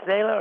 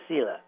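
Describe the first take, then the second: First: Selah said as SAY-lah; first syllable of Selah rhymes with "say"; SAY-lah pronunciation. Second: Selah said as SEE-lah; first syllable of Selah rhymes with "see"; SEE-lah pronunciation. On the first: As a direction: pronounce Selah with an AY vowel first. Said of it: "they're pronounced Selah". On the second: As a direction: pronounce Selah with a long EE first. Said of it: "is it Selah or Selah?". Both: Shown as a demonstration.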